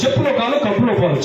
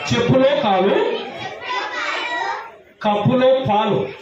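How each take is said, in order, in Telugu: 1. ఈ పదబంధాన్ని వేగంగా, విరామం లేకుండా చెప్పారు. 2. ఈ పదబంధాన్ని నెమ్మదిగా, మధ్యలో విరామంతో చెప్పారు.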